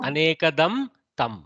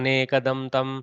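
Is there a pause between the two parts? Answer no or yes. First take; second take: yes; no. First: There is a short pause between the two parts. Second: It is said fast with no pause between parts. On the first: "with a little avasana, with a little space" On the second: "when you read fast, ... you don't read avasana"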